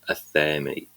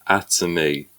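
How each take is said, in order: First: The word is said with a partly English pronunciation. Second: The word is said with a French pronunciation. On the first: "partly Anglicize that, ... Anglo-French um, pronunciation" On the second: "So the French version is Atomy"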